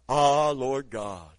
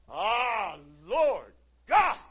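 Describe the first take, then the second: First: It is said flatly, like a doctor's ah. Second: It is said with awe and passion.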